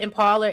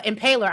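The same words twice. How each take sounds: First: "Impala" said with an open final "ah"; misread word. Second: "Impaler" said as im-PAY-ler; corrected pronunciation. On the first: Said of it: "Impaler, I'm sorry". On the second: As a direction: stress the long "pay" in "Impaler". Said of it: "I'm sorry". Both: Real, not acted.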